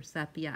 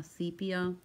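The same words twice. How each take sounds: First: "sepia" with short e, SEP-ee-uh; short-e pronunciation. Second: "sepia" with a long ee, SEE-pee-uh; long-e pronunciation. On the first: Crafter offering another way to say the colour, "sepia" as SEP-ee-uh. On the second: Crafter unsure how to say the fairy's colour, "sepia" as SEE-pee-uh. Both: Shown as a demonstration. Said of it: "I don't know if you call it sepia or sepia".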